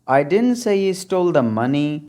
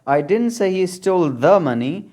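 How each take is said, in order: First: The word money carries the stress. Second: The word the carries the stress. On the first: He stole something other than money. "अगर last word पर आप stress डालेंगे" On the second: He stole some other money. "अगर द पर stress डालेंगे"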